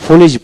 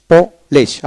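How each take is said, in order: First: "ফুলিশ" with u in the first syllable; British pronunciation. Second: "পোলিশ" with an o in the first syllable; Polish-style "police". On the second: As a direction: say "পোলিশ" as po-lesh. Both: Shown as a demonstration. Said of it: "ব্রিটিশে ফুলিশ বলা হয়".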